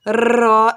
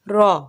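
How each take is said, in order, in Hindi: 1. r को तेज़ कंपन के साथ, बहुत थरथराकर बोला जाता है। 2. r को सिर्फ हल्की कंपन के साथ बोला जाता है। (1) "रॉ ऐसे नहीं पढ़ना, मतलब बहुत ज्यादा कपकपाहट नहीं आनी चाहिए" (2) "हल्की सी कपकपाहट रॉ, बस"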